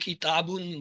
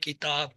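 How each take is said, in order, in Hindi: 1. शब्द के आख़िर में एक अतिरिक्त -un जुड़ा होता है। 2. शब्द किसी बिना हरकत वाले व्यंजन पर खत्म होता है। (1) "जब हम इसे प्रॉपर प्रोनाउंस करेंगे तो कहेंगे" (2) "जिस हरफ पे आप रुकते हैं ... तो हम कहते हैं"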